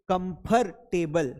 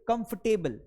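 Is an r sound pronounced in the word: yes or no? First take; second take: yes; no. First: The r sound is pronounced in the word. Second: The r sound is left out of the word. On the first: The speaker calls it wrong. "कई लोग बोलते हैं कंफर्टेबल" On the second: The speaker calls it right. "आर नहीं बोलना है"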